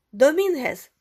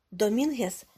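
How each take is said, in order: First: High, loud call of his name. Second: Said in the usual way. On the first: A narrator's reading. Gomez hails Dominguez at the billiard room, calling out. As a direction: call out to get his attention. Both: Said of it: "гукнув Гомес".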